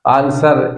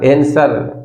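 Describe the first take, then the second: First: आंसर as 'aan-sar'; British pronunciation. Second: आंसर as 'en-sar'; American pronunciation. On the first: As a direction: open long 'aa' starting आंसर. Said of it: "British लोग बोलते हैं". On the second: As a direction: front 'e' starting आंसर. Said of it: "American लोग बोलते हैं". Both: Shown as a demonstration.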